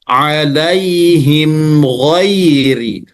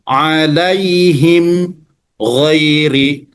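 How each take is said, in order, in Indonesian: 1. Kedua kata itu tersambung tanpa berhenti. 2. Ada jeda berhenti di antara kedua kata itu. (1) "Jadi cara membacanya" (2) "diberhentikan juga tidak boleh, misalnya alaihim ghairi nggak boleh"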